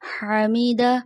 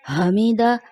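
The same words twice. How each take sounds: First: The first h is a deep throaty h. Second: The first h is a plain breathy h. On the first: The speaker calls it right. "दुरुस्त अदायगी" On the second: The speaker calls it wrong. "हा की जगह हा की अदायगी आ जाती है"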